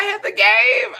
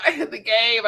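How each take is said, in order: First: Slow, very high and loud; a squealed, drawn-out boast; high drawn-out emphasis. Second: Said in the usual way. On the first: Shown as a demonstration. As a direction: stretch it out high in mock pride. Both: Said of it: "'Cause I had the game".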